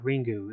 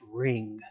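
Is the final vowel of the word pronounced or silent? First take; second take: pronounced; silent. First: The word ends with a clearly pronounced u vowel. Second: The word ends with the u vowel nearly silent. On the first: The speaker calls it wrong. "But it's not Ringu" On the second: The speaker calls it right. "The the U is practically silent"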